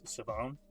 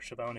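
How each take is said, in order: First: The name begins with a plain s sound. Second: The name begins with an sh sound. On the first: The speaker calls it right. "he has a silent H in the first name" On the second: The speaker calls it wrong. "It is not Siobhan"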